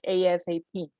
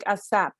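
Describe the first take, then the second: First: It is said letter by letter. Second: It is said as a single word. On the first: The speaker calls it right. "it should be pronounced like ASAP" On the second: The speaker calls it wrong. "I've heard like people saying like ASAP, but no"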